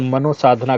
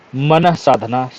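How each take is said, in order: First: The first part is said as 'mano'. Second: The first part is said as 'manah'. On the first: The speaker calls it wrong. "मनोसाधना गलत है" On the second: The speaker calls it right. "मनः साधना शुद्ध शब्द है"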